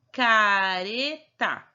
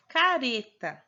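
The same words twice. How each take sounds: First: Careta very slow, r a light tap; sounding out. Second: Said in the usual way. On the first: Shown as a demonstration. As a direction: sound out careta for young pupils. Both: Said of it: "Tem o R no meio".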